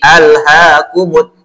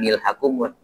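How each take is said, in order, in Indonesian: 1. Terdengar hamzah sebelum alhakumut. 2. Bunyi m langsung menyambung ke lhakumut. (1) "Ini bacanya"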